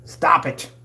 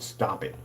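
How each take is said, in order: First: Sharp, higher, punched-up "Stop it"; fed-up outburst, raised pitch; exasperated command. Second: Said in the usual way. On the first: Real, not acted. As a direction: scold them with a forceful "Stop it". Scolding rivals, repeats it forcefully.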